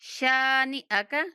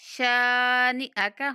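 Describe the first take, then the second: No difference in how they are said.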